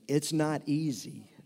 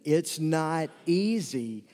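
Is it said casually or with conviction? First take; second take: casually; conviction. First: It is said casually, without much feeling. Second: It is said with strong, heartfelt conviction.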